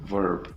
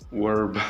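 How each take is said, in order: First: The word begins with a V sound. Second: The word begins with a W-like sound. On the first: The speaker calls it right. "instead of verb" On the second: The speaker calls it wrong. "I used to say this verb"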